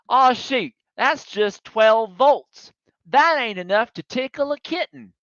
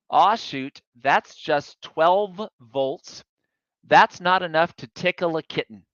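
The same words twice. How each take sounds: First: Put-on high, emphatic hillbilly mechanic in a Southern accent. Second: Said in the usual way. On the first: Driver quoting hillbilly mechanic on the harmless spark, imitated Southern accent. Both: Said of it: "in case my Southern accent was terrible".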